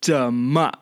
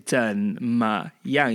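First: 怎么 run together, stressed 么; linked, colloquial 怎么; quick-speech 怎么. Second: 怎么样 sounded out syllable by syllable; careful, separated 怎么样; unlinked syllables in 怎么样; each syllable separate in 怎么样. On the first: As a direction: merge the syllables of 怎么. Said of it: "if you say it quickly". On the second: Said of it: "you don't say". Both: Shown as a demonstration.

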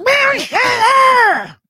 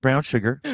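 First: High, slow shouted villain voice; cartoon villain. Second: Said in the usual way. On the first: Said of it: "You sound like a cartoon villain". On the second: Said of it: "repeating plainly".

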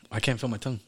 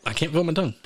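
First: Numb tongue from hot sauce; talking with a burning mouth; mouth burning from spicy food. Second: Numb tongue, a bit higher; mouth burning from spicy food. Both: Real, not acted.

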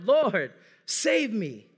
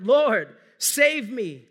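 First: Slow, stretched-out plea to God; drawn-out plea. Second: Loud, urgent cry for help; cried out. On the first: Preacher voicing the congregation's cry, slow, stretched plea. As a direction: draw the words out like a long plea. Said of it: "we're screaming out". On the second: Preacher voicing Peter sinking in the wind, loud desperate cry. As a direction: call out like a man sinking in the waves. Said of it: "he cried out". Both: Acted.

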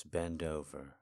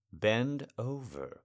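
First: Said in the usual way. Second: "Bend over" slowed right down, louder, with weight on "Bend"; insistent command, pressing on "Bend"; slow firm repeat. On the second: Acted. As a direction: lean hard on "Bend" and drag out "over".

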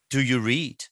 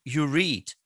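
First: "Do you read?" rising at the end as a question; "Do you read?" with a rising question tune. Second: "You read?" said flat as a statement, falling at the end; "You read?" with a falling assertion tune. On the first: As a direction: ask it, lift the end. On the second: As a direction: state it, do not ask. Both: Shown as a demonstration.

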